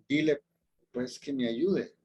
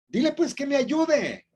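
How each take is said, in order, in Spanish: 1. Se dice con un tono suave y amable. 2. Se dice con un tono agudo y exigente. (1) "Vamos a hacerlo de manera un poquito más misericordiosa" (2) "Yo me imagino a Marta así"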